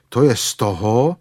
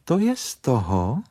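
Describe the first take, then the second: First: Louder, put-out grumble; grumbling. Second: Curt rebuke. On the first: Stuck bear blames the small doorway, grumbling. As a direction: grumble it with some force. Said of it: "bručel Pů". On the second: Rabbit answers the grumbling bear, curt rebuke. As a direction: throw the blame back curtly. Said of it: "řekl králíček příkře". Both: Acted.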